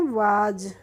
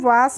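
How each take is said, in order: First: The word ends with a buzzing z sound. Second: The word ends with a hissing s sound. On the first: The speaker calls it right. "क्या पढ़ते हैं, वाज" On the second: The speaker calls it wrong. "इसको हम वास नहीं पढ़ते हैं"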